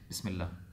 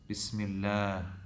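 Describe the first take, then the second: First: The vowel is said short, without lengthening. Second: The vowel is prolonged and drawn out. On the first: The speaker calls it wrong. "we wouldn't just say Bismillah" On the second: The speaker calls it right. "lengthen Bismillah"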